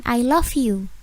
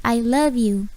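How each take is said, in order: First: "love" as lof in "I love you"; wrong pronunciation. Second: "love" as luv in "I love you"; correct pronunciation. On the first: Teacher showing the common mistake, mispronounced demo. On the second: Teacher correcting the phrase for learners, clear model pronunciation. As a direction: say "love" with voiced v before you. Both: Shown as a demonstration. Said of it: "bukan I love you, tapi".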